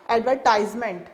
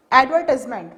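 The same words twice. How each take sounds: First: Advertisement with stress on AD and TISE, AD-ver-tize-ment; advertisement, American AD-ver-tize-ment; American pronunciation. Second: Advertisement with stress on VER, ad-VER-tis-ment; advertisement, British ad-VER-tis-ment; British pronunciation. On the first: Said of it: "whereas American says advertisement". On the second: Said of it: "British pronounce this word". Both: Shown as a demonstration.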